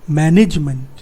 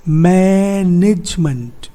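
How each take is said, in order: First: Said in the usual way. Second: मैनेजमेंट drawn out slowly, मै-निज-मंट; three-syllable split. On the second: Shown as a demonstration. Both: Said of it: "तो यहाँ पे कितने syllable हैं?".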